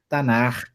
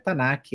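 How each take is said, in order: First: The word ends in a throaty rasping sound. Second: The word ends in a hard k sound. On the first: The speaker calls it right. "é Tanar, é a sigla correta" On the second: The speaker calls it wrong. "já sabe que está errado, não é Tanak"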